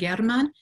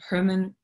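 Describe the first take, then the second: First: The name is pronounced the Russian way. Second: The name is pronounced the English way. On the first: "that's how it would be said in Russian" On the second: "That's fine if you want to say it that way"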